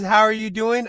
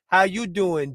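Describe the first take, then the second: First: It is said in a plain, ordinary voice. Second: It is said in a Joey from Friends voice.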